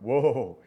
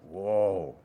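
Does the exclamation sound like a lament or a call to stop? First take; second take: call to stop; lament. First: It is said like telling someone to stop. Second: It is said like a grieving lament. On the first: Slow down. The speaker calls it wrong. "it's not like slow down, like" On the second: A cry of grief over coming judgment. The speaker calls it right. "It's like"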